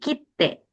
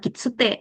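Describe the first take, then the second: First: A held 't' with a short pause, no vowel. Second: A full extra 'tsu' syllable is pronounced. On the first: The speaker calls it right. "tapi kite" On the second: The speaker calls it wrong. "Ini bukan kitsute"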